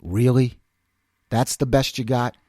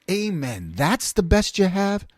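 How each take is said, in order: First: Low-pitched, understated challenge; imitated unimpressed principal. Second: Slow, drawn-out question rising at the end; retold incredulous echo. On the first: Principal to a cursing student, low unimpressed retort. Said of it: "But she goes". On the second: Speaker seconding the principal, slow incredulous echo. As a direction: echo it slowly in mock disbelief. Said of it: "And I was like".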